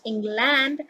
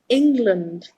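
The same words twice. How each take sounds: First: The last syllable has a full 'land' vowel. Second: The last syllable is reduced to a weak 'lund'. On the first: The speaker calls it wrong. "It is not England" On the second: The speaker calls it right. "it is England. That is the correct pronunciation"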